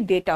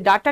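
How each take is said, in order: First: The first vowel sounds like 'ay'. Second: The first vowel sounds like 'ah'. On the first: The speaker calls it right. "ये डेटा होता है" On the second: The speaker calls it wrong. "कुछ लोग डाटा बोलते, डाटा नहीं होता बेटा"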